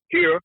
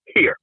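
First: Sharp high call of here; called dog command. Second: Said in the usual way. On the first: Shown as a demonstration. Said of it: "giving it the command to switch directions". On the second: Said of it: "which was".

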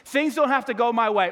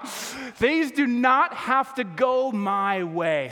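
First: Said in the usual way. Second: "Things do not have to go my way", each word drawn out; slow emphatic restatement. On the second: Shown as a demonstration. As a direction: hammer "do not" and stretch every word slowly. Restates point two with emphasis.

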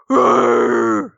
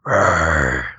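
First: Low growling rawr; deep animal roar; bison roar. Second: Very low guttural growl; guttural bison growl. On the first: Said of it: "so the rawr is like". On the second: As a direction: growl it from deep in the throat. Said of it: "a guttural sound". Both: Shown as a demonstration.

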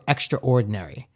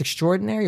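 First: "extraordinary" said as "extra ordinary"; two-word pronunciation. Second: Said in the usual way. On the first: Shown as a demonstration. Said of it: "or extraordinary". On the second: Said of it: "I never know if it's extraordinary".

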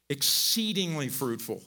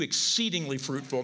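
First: Exceedingly drawn out slowly and weighted; stress on exceedingly. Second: Said in the usual way. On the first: Shown as a demonstration. Preacher stressing God's promise to Abram, slow weight on "exceedingly". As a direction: lean slowly on "exceedingly" before fruitful. Not just fruitful, but.

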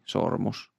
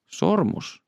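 First: Said in the usual way. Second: SORMUS pitched high, then falling; high, questioning repeat of SORMUS; questioning echo. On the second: A narrator's reading. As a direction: pick up on SORMUS with sudden, high-pitched interest. Detective queries the item just named.

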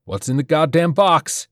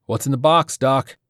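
First: Higher and louder, snapping demand; furious demand on rifle sights; tense shout. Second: Raised, higher tense challenge; tense soldier demanding an answer. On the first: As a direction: shout it at the doctor, losing patience. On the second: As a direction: press him hard, breathing tight. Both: A narrator's reading. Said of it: "His breathing was tense".

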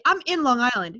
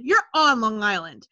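First: "I'm in Long Island" with "in" said as the wrong word; wrong preposition. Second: "You're on Long Island" with "on" said as the local phrasing; right preposition. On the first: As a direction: say "in Long Island" as the outsider's phrasing. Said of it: "nobody on Long Island is gonna say". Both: Shown as a demonstration.

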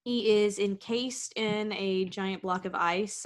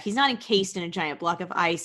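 First: Said in the usual way. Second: "not" stressed as a correction. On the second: Acted. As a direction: lean on "not" to take it back. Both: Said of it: "no, I take that back".

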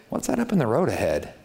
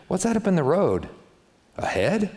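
First: Said in the usual way. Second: Higher, urgent alarmed question. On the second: Shown as a demonstration. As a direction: spot danger on the road ahead and react. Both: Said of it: "Do you see how that's completely different".

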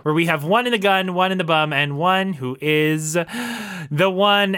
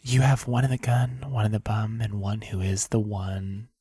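First: Bright host catchphrase; show host. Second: Soft, low ASMR voice. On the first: Acted. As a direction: sell the catchphrase. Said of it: "welcome to this week's". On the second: Pretend. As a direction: breathe it close, like ASMR. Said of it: "our very first ever A S M R".

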